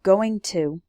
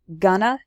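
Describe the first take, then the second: First: Both words are said clearly and separately. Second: The words are shortened into one blended word.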